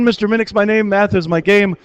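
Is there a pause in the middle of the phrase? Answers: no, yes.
no. It is said without a pause inside. "so I purposely didn't pause"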